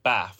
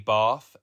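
First: It is said in her original regional accent. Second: It is said the London way she picked up.

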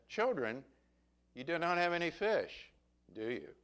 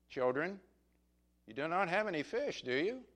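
First: It sounds like a remark already knowing the answer. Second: It sounds like a question wanting an answer. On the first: The asker already knows they caught no fish. "In other words, he knew they didn't have any fish" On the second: The asker wants them to say whether they caught fish. "Like, answer me, tell me"

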